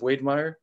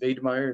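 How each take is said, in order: First: The name is pronounced the English way. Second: The name is pronounced the German way.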